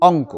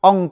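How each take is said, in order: No difference in how they are said.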